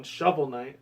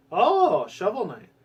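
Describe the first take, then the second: First: Said in the usual way. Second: Sudden higher excited oh, Shovel Knight; light up on the name; oh, it's the one I wanted; excited recognition. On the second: Real, not acted.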